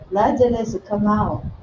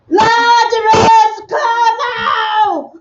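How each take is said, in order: First: It is said quietly, without force. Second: It is shouted loudly with force.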